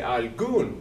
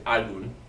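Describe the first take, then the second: First: The stress is on the last syllable. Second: The stress is on the first syllable. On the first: The speaker calls it right. "It's over the u. We say algún" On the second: The speaker calls it wrong. "We don't say algún"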